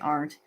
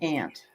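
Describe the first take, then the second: First: It is said the speaker's own, non-Western way. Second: It is said the Western US way.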